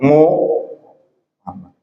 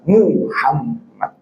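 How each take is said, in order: First: The first vowel is an 'o' sound. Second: The first vowel is a clear 'u' sound. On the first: The speaker calls it wrong. "bukan Muhammad. Salah ini" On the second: The speaker calls it right.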